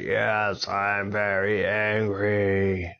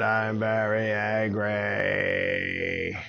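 First: Slow, stretched-out dragon roar; angry dragon. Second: Extremely drawn-out mock scream; angry dragon. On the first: Acted. Dragon admits his anger to Avon, drawn out. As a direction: hold each word long in mock rage. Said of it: "I could see how angry you are". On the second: Dragon lets anger out as Avon suggested, stretched roar. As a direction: stretch every word into a long dragon roar. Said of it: "Even scream about it if you want".

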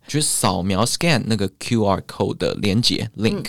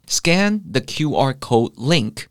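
First: Said in the usual way. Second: Slow, careful English example; slow demo. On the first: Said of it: "差点动英文说". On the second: Shown as a demonstration. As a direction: say each word slowly for learners. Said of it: "到底要怎么用英文表达呢". (放慢速度示范英文句子)

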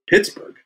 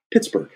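First: High-pitched questioning echo; challenging echo. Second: Short falling answer, higher-pitched; retold blunt answer. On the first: Retold or imitated. Actor echoing director's hometown, questioning. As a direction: throw the name back as a question. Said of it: "you got a problem with Pittsburgh?". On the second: Director naming his hometown to actor, blunt. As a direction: imitate a director stating his hometown firmly. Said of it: "And he goes".

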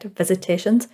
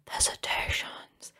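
First: Said in the usual way. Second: Slow eerie whisper. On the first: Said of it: "repeated name, second whispered". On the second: Shown as a demonstration. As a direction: breathe it like a ghost. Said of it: "spooky repeat".

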